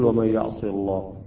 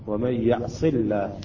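First: The L in the last word sounds heavy. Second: The L in the last word sounds light. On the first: The speaker calls it wrong. "لا نقول" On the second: The speaker calls it right. "هنا اللام ترقق"

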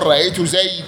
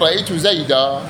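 First: The last word ends on a bare consonant. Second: The last word ends with a long a vowel. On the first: This is the pausal form of the Rabi'a tribe. "فإنهم وقفوا على نحو رأيت زيدا بالحذف" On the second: "لهذا وقف عليه العرب بالألف"

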